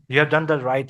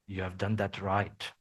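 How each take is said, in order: First: It is said in a sincere, approving tone. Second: It is said in a mocking, sarcastic tone. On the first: The work was truly done well. "in the genuine sense" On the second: The work was actually not done well. "how would you sound being sarcastic?"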